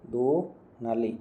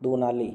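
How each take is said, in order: First: "दुनाली" split slowly as "du... naali"; slow syllable demo. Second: Said in the usual way. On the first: Shown as a demonstration. Teacher breaks up the word for students, slow and separated. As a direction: draw out the first syllable of "दुनाली", then "naali". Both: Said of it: "दो का दो बन जाता है".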